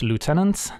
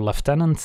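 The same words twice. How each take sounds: First: It is said with an American pronunciation. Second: It is said with a British pronunciation.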